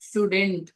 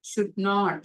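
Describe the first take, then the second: First: It is said as one shortened word. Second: It is said as two full, separate words.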